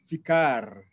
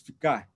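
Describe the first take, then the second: First: The final R is pronounced normally. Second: The final R is dropped entirely. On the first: "no lugar de ficar" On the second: "se diz ficar ... se corta o R final"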